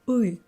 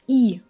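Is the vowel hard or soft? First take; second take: hard; soft. First: The vowel is a hard, central 'ih' sound. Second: The vowel is a soft, front 'ee' sound. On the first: The speaker calls it right. "I'm saying I" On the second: The speaker calls it wrong. "I'm not saying i, soft i"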